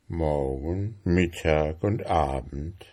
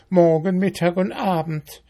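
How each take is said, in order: First: Musing beetle. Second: High, brisk ant voice; scornful ant. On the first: Beetle mulling over ant's report, musing. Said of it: "rieb sich den Kopf". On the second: Ant quoting mayfly to beetle, scornful. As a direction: rattle it off with disdain, pitched up. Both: A narrator's reading.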